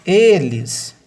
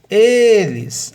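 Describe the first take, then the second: First: Loud, high Eles with stress on the first syllable; stressed word. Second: Eles said louder and higher, the first syllable e stressed; stressed word repeated. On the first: Teacher to class, Eles spoken with the first syllable stressed. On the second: Teacher repeats for the class, eles with the first syllable stressed. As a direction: eles again, its opening e hit hard. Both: Shown as a demonstration. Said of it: "a sílaba tônica dessa palavra é o e".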